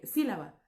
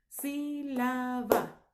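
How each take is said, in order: First: Said in the usual way. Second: "Sílaba" very slow, stretched into sí, la, ba; syllable by syllable. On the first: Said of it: "Por ejemplo". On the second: Shown as a demonstration. Teacher shows a word's rhythm, "Sílaba" drawn out by syllable. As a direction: beat out "Sílaba" in three long syllables. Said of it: "Todas las palabras tienen un ritmo".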